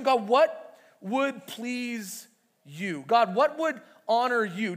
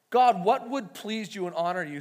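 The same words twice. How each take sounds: First: Very slow, drawn-out questioning; slow searching prayer. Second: Said in the usual way. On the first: Shown as a demonstration. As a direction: let each word hang as you ask God. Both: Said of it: "You ever ask that question".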